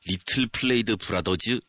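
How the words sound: It is said in a Korean-style English accent. The speaker calls it right. "저희는 그냥 끝까지 콩글리시"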